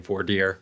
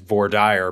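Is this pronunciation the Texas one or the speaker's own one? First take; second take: own; Texas. First: It is pronounced the speaker's own usual way. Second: It is pronounced the way Texans say it. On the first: This is how the speaker personally says the term. "but I think I say voir dire" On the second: This is how the term is said in Texas. "Texas is voir dire"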